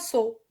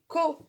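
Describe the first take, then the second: First: The syllable begins with an S sound. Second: The syllable begins with a K sound. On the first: The speaker calls it wrong. "On ne dit pas so" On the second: The speaker calls it right. "elle se prononce co"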